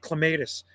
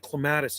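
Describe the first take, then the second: First: It is said the British way. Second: It is said the local Canadian way.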